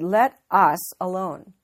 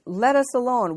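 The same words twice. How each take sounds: First: "Let us alone" said slowly, loud, leaning on "Let"; slow emphasis. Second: Raised, loud demon's cry. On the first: Shown as a demonstration. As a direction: drag out "Let us alone" to point at "us". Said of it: "look at this a little more closely". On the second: A narrator's reading. Demon cries out in scripture.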